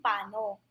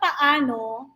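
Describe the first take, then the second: First: The word is said in a shortened form. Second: The word is said in its full form. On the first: "minsan nagiging paano" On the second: "Yung salitang paano"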